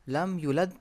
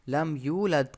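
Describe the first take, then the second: First: The vowel after the y is short. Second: The vowel after the y is long. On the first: The speaker calls it wrong. "लम युलद पढ़ेंगे तो ये हमारी गलती" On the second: The speaker calls it right. "लम यूलद को"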